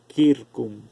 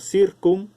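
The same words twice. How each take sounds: First: The word begins with a K sound. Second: The word begins with an S sound. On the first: "En latín se pronuncia circum. La C suena como K en latín" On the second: "en español pasa como circum"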